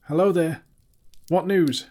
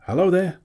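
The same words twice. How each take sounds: First: High, loud, shaky call. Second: Called out high and loud; calling out. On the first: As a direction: call out with a trembling voice. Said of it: "with a shaky voice". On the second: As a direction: call across the rocks. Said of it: "he called". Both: A narrator's reading.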